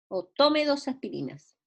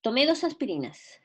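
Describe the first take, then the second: First: "tome" stressed on its first syllable, TO-me; "tome" with the stress on the opening to. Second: "Tomé" stressed on its final syllable, to-MÉ; "Tomé" with the stress landing on the final é. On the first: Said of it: "Estoy recomendándole a alguien que tome". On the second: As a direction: say "Tomé" as the past tense, leaning on the last é. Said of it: "estoy pronunciándolo con acento". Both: Shown as a demonstration.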